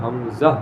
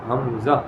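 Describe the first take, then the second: Both takes have the same delivery.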